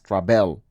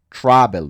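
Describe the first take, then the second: First: The stress is on the second syllable. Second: The stress is on the first syllable. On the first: The speaker calls it wrong. "no es travel" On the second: The speaker calls it right. "la sílaba fuerte está en la A, en travel"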